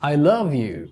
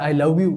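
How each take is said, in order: First: The v is made with teeth on lower lip. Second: The v is made with rounded lips, like w. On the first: The speaker calls it right. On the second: The speaker calls it wrong.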